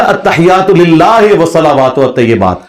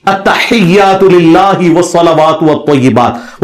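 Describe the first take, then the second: First: "للہ" ending in an open "he", quicker than careful recitation; imitated majhool reading. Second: Slow, careful "التحیات للہ" with pure i in "lillahi"; maroof recitation. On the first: Mimicking a rival cleric's prayer, majhool vowels. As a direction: recite "التحیات للہ" loosely, with "lillahe". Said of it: "وہ پڑھے گا". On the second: Shown as a demonstration. Showing how the prayer should be read, maroof vowels. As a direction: stretch each word, "للہ" ending in "hi". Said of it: "معروف طریقے سے نہیں سنا سکتا".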